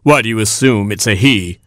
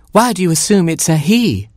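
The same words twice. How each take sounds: First: Lightly voiced rooster in natural register; Papa Rooster. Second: High, challenging hen voice; high-pitched offended hen; Mama Hen. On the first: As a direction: ask it with mild challenge, unraised pitch. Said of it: "asked Papa Rooster". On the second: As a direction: question it sharply as a mother hen. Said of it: "said Mama Hen". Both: A narrator's reading.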